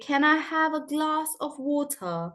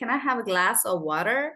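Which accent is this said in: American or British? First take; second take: British; American. First: It is said in a British accent. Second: It is said in an American accent. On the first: "And in British, you would say" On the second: "American accent, you'll say"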